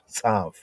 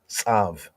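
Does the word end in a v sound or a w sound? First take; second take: v sound; v sound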